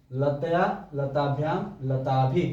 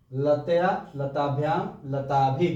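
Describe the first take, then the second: No difference in how they are said.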